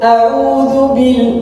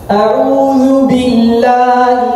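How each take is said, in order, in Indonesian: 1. Vokal i setelah b tertelan. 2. Vokal i setelah b terucap jelas. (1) "enggak boleh" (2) "harus jelas harus jelas"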